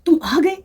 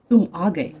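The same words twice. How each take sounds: First: It is said with surprise or joy. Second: It is said as a plain statement.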